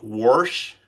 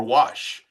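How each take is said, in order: First: "wash" said as "worsh", with an r; accented pronunciation. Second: Said in the usual way. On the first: Shown as a demonstration. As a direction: put an r before the sh in "wash". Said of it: "somebody that has an accent". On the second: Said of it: "How about the enunciation?".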